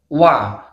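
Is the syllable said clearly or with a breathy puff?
clear. The syllable is said clearly without breath. The speaker calls it right. "harus dibaca jelas, jahar"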